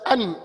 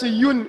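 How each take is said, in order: First: It begins directly with the vowel, like 'unfortunate'. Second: It begins with a 'y' sound, like 'united'. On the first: "majority of the people pronounce it as uh, un" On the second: "some people pronounce it as yun also"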